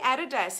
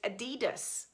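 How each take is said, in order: First: The name is said the Australian way. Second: The name is said the American way. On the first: "we say Adidas in Australia" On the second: "a lot of Americans term it"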